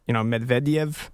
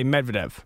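First: The name is said with a Russian-style accent. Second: The name is said with a plain American accent. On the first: This is closer to how a Russian speaker says it. "if you were actually to say it with the Russian accent, like I've heard" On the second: This is how people here usually say it. "normally, we would just say Medvedev"

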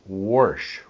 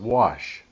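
First: The word has an added R sound, like warsh. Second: The word has no R sound in it.

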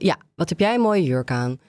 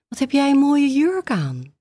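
First: It sounds impatient and hurried, with a sigh. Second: It sounds very surprised and amazed.

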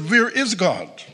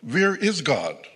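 First: It is asked louder, in a sterner voice. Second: It is asked sternly at moderate volume.

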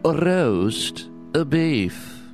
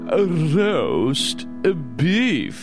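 First: It is said at normal speed. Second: It is said slowly and drawn out.

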